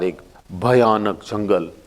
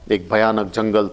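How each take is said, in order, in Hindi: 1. यह नाटकीय ढंग से कहा गया है, तेज़ तीव्रता के साथ। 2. यह सपाट तरीके से कहा गया है, बिना तीव्रता के। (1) "डरावना शब्द के साथ एक इम्पैक्ट है" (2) "it is not exactly communicating the intensity"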